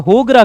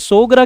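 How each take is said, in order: First: The word begins with an h sound. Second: The word begins with an s sound. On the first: "होगरा कहते हैं" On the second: "सोगरा की जगह"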